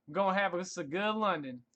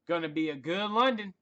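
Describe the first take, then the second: First: Country accent. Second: Said in the usual way. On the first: Shown as a demonstration. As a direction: say it like a good ol' Southern country boy. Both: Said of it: "the country accent on you".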